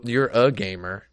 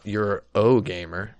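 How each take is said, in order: First: Said in the usual way. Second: You're o gamer with o said as a long oh; misspelled reading. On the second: Shown as a demonstration. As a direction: stretch the o in you're o gamer slowly, rising. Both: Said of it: "Why did they spell that wrong?".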